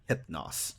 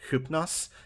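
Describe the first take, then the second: First: The first vowel is a bright 'ih' sound. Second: The first vowel is an 'oo' sound. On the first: It follows the anglicized pronunciation. "almost brighter sound, like nix or hypnos" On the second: It follows the original Greek pronunciation. "why I also say hypnos instead of hypnos"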